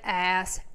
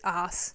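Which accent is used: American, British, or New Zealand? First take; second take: American; New Zealand. First: It is said in an American accent. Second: It is said in a New Zealand accent.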